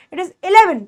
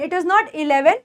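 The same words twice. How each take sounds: First: Eleven with a brief "ih" opening; eleven as a quick "ih-leven"; short first vowel. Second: Eleven opened with a long "ee"; eleven as "ee-leven"; wrong long E. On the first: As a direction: keep the start of eleven short. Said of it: "थोड़ा सा short करके". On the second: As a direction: stretch the first vowel of eleven. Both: Shown as a demonstration.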